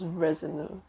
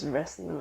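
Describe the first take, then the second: First: An extra vowel sounds between s and n. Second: The s runs straight into the n. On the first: The speaker calls it wrong. "I always thought he was Resiner" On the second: The speaker calls it right. "but no, it's Resner"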